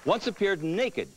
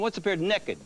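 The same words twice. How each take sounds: First: It is said in a plain standard accent. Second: It is said in a West Virginia accent.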